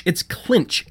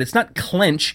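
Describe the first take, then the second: First: "clinch" with a short i, emphatic; corrected vowel stressed. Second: "clench" with a short e, set up for contrast; wrong vowel stressed. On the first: Judith corrects Zoe, "clinch" stressed with an i. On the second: Judith corrects Zoe, "clench" stressed with an e. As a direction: stress "clench" as the word to reject. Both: A narrator's reading. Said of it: "not even thinking of the right word".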